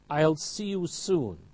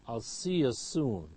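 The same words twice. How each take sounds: First: Each word is said fully and clearly. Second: The words are shortened and run together.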